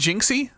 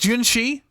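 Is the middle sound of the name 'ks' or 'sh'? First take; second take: ks; sh. First: The middle sound is said as 'ks'. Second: The middle sound is said as 'sh'. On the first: "Have I been saying Jinxie?" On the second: "Because the X in Chinese"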